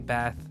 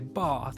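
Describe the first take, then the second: First: It is said with an American vowel. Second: It is said with a British vowel. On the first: "I say bath" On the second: "but I know you guys say bath"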